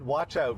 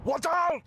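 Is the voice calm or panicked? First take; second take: calm; panicked. First: It is said calmly and politely, British accent. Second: It is shouted in a panicked, alarmed voice. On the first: "nice, polite British accent" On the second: "He went"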